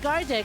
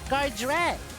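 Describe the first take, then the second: First: There is no R sound after the D. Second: An R sound follows right after the D. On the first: The speaker calls it wrong. "I've been saying Gardick" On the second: The speaker calls it right. "a sneaky little R between the D and the E"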